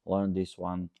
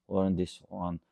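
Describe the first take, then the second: No difference in how they are said.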